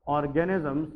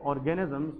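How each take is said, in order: Both takes have the same delivery.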